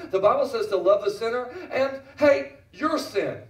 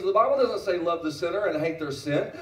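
First: "your" set apart and hit hard, higher; stress on YOUR. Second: Said in the usual way. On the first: Retold or imitated. Preacher quoting his son's correction, "your" punched emphatically after a pause. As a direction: build up, pause, then land firmly on "your". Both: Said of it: "he made this statement".

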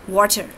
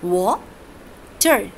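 First: Said in the usual way. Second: "water" pulled apart as wa, long pause, ter; teacher's slow syllable break in "water", wa... ter; split into syllables. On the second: Shown as a demonstration. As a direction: say "water" as two isolated syllables. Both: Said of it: "wa is one syllable and ter is second".

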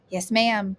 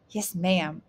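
First: Louder, eager reply; excited. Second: Said in the usual way. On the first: A narrator's reading. Grandson given the money, answering grandmother, excited. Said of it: "Ramik replied with excitement". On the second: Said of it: "Ramik promised again".

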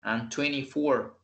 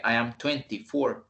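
First: "twenty-four" as twenny-four, t dropped; reduced twenty. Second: "twenty-four" as twen-tee-four, both t's sounded; full-t twenty. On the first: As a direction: leave out the t after n in "twenty-four". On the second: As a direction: pronounce the second t in "twenty-four". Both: Shown as a demonstration. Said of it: "no dije".

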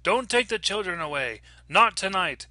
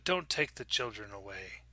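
First: High, urgent cry, moderately loud; screamed warning. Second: Low, soft plea, understated; quiet warning. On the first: Stranger to the mother at the door, screamed warning. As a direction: cry out a desperate warning, short of a full scream. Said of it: "she screamed out". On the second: Stranger behind the front door, quiet warning. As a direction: warn her softly, without raising your voice. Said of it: "a woman's voice said". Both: A narrator's reading.

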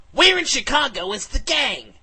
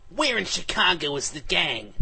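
First: Much higher, louder demand; repeated demand. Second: Said in the usual way. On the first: Acted. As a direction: yell the question at them a second time. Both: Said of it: "and I repeated".

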